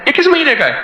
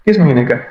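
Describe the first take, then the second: First: High, eager asking which issue; the asker's excited question, pitched high; surprised question. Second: Said in the usual way. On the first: Retold or imitated. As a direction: ask it as if amazed. Man asks about magazine issue.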